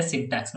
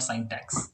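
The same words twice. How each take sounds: First: "syntax" said properly as SIN-tax; correct pronunciation. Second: "syntax" said wrongly as SIGN-tax; mispronunciation demo. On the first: Teacher praising a student's reading, "syntax" pronounced correctly. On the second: Teacher showing the common mistake, "syntax" mispronounced as SIGN-tax. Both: Shown as a demonstration. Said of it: "pronouncing it properly".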